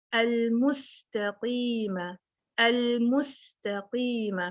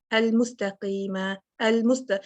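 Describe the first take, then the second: First: المستقیم slowly with a clear hissed س; whistled seen. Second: المستقیم with the س cut short; clipped seen. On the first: Teacher reciting with proper whistle: slow tajweed. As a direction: stretch the س in المستقیم. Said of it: "اگر ہم یہ وسل نہیں لے کے آئیں گے". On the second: Teacher showing the mistake: short س. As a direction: rush past the س in المستقیم. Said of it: "cut down کر دیا میں نے". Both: Shown as a demonstration.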